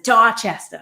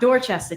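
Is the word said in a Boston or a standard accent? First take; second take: Boston; standard. First: It is said in a thick Boston accent. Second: It is said in a standard, non-Boston accent. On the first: The speaker calls it right. "super thick Boston accent, that's how people pronounce it" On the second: The speaker calls it wrong. "not Dorchester"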